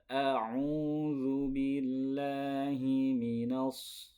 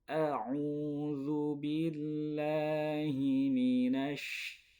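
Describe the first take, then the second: First: The word ends with a heavy emphatic s. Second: The word ends with an sh sound. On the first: The speaker calls it wrong. "itu so" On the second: The speaker calls it right. "yang betul"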